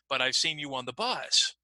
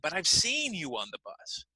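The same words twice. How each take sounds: First: The word bus carries the main stress. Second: The word seen carries the main stress. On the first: "I might emphasize the word bus" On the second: "maybe you're lying to me?"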